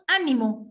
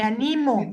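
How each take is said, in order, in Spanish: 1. La sílaba con acento es la primera. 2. La sílaba con acento es la del medio. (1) "con acento o tilde en la A" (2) "sin tilde"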